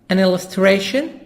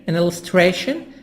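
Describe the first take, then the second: The two takes are said the same way.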